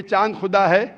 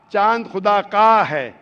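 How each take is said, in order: First: Said in the usual way. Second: "का" punched loud and drawn out; slow down and lean hard on "का"; stress on possessive. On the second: Shown as a demonstration.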